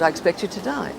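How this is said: The line is delivered lightly, as a casual throwaway. The speaker calls it right. "just throw it away"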